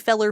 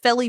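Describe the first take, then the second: First: The word ends in an 'er' sound. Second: The word ends in an 'ee' sound. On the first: "fella is felly or feller" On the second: "fella is felly or feller"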